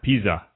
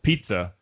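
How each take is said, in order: First: The double Z sounds like a plain 'z'. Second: The double Z sounds like 'ts'. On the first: The speaker calls it wrong. "and not pizza" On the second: The speaker calls it right. "if you have two Zs, it's a T and an S"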